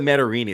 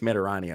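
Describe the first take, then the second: First: The vowel before the last syllable sounds like 'ee'. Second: The vowel before the last syllable sounds like 'ah'. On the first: The speaker calls it wrong. "I said Matarini" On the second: The speaker calls it right. "It's Matarani"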